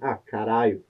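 It sounds upset and frustrated.

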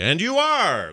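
The voice sounds upbeat and upright. The character stands up straight with a new outlook. "like that, because they'd have a whole new outlook on life"

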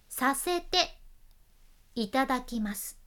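The phrase is broken into chunks with pauses. The speaker calls it right. "ちょっとね途中でスラッシュを入れるイメージかな"

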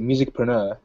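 The word is said in a British way. "the British people, they say musicpreneur"

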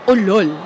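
It sounds like a scornful, insulting remark. It means 'you're stupid'. "like you're stupid"

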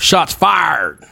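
It is said in a Southern US accent.

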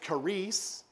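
It is said with Greek pronunciation.

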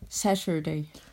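It has a Cork Irish accent.

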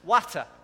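It is said in a Yorkshire accent. "they pronounce it as it's spelt"

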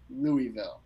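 The name is said carefully, syllable by syllable.

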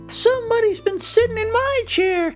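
It is said in a tiny, high, squeaky voice.

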